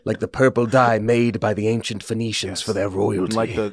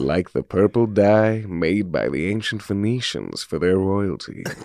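First: It is said in an ordinary speaking voice. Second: It is said in a rich, soulful voice.

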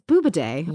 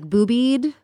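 First: The name is said with three syllables. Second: The name is said with two syllables. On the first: This is the speaker's preferred way to say it. The speaker calls it right. "it's Boobaday" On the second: Some other people say it this way. The speaker calls it wrong. "I heard like boobied or boobed"

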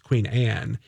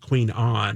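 First: Anne is said with a plain American vowel. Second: Anne is said with a European-sounding vowel. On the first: This is the ordinary, correct pronunciation. The speaker calls it right. "it's Queen Anne" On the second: This is an affected, mistaken pronunciation. The speaker calls it wrong. "it's not Queen Anne"

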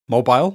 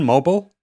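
First: It is said with a British pronunciation. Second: It is said with an American pronunciation.

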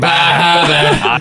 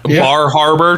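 First: The r sounds are dropped, Maine style. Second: The r sounds are clearly pronounced.

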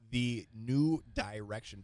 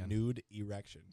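First: The phrase is said slowly, words kept apart. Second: The phrase is said quickly, words run together. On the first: It names the festival innocently. The speaker calls it right. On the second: It sounds like a rude phrase. The speaker calls it wrong.

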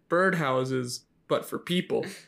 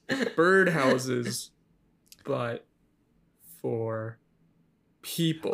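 First: It is said at a normal, quicker pace. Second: It is said slowly and deliberately.

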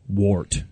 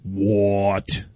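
First: It is said like the ordinary word wart. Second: It is said imitating the film's pronunciation. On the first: "Like you got a wart" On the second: "as they pronounce it in the movie"

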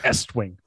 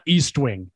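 First: The first syllable sounds like 'ess'. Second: The first syllable sounds like 'east'. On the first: The speaker calls it right. "It's S Wing" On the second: The speaker calls it wrong. "it's not East Wing"

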